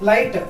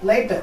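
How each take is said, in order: No difference in how they are said.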